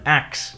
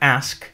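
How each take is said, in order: First: The word ends with a k then s sound. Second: The word ends with an s then k sound. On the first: "you might have also heard axe in some dialects" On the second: "in English we have ask"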